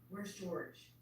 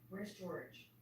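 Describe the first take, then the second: The two takes are said the same way.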